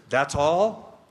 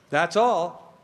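First: "all" lifted into a question. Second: "all" falling to a full stop; firm confirmation. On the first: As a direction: say it as a check, rising on "all". Echoes gospel answer as question, then confirms. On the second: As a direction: settle it, landing firmly on "all". Confirms the simple gospel answer. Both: Acted.

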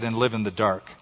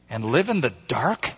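First: Low, even statement, "dark" not lifted; confirming. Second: "dark" lifted as a question. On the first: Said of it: "he said". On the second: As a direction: ask it with a rise on "dark". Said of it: "she asked". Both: A narrator's reading.

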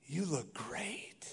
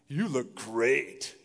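First: Breathy hushed "You look great"; whispered compliment. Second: Slow, drawn-out "You look great"; flat compliment. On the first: Pastor demonstrating a hushed compliment to a wife, whispered. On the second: Pastor showing the same words meaning something else, slow and drawn. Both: Shown as a demonstration. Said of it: "Same words, different meaning".

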